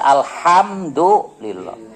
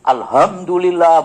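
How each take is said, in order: First: The h is a tense, throaty h. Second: The h is a plain, light h. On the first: The speaker calls it right. "tapi yang benar" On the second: The speaker calls it wrong. "bener tuh? Salah"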